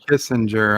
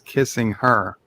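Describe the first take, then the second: First: It is said as the surname Kissinger. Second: It is said as the phrase kissing her. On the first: The speaker calls it wrong. "I've been mispronouncing his name" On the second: The speaker calls it right. "It's a space kissing her"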